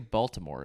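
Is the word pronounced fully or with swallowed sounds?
fully. Every sound in the word is fully pronounced. "you don't say Baltimore"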